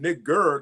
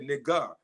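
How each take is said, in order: First: The word ends with an R sound. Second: The word ends without an R sound. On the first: "instead of saying" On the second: "the slaves could not pronounce the R"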